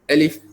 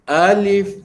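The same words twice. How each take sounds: First: The first vowel is short and quick. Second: The first vowel is drawn out long. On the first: The speaker calls it right. "dibaca satu harakat" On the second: The speaker calls it wrong. "Jangan dibaca alif alif, ah, dipanjang begitu"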